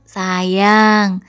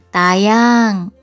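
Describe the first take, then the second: First: The word is pronounced in its normal standard form. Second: The first s sound is changed to a childish t.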